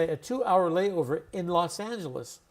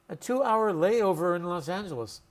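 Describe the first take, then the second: The two takes are said the same way.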